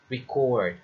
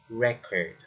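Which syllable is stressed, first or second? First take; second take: second; first. First: The stress is on the second syllable. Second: The stress is on the first syllable. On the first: The speaker calls it right. "Another is record" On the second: The speaker calls it wrong. "not record"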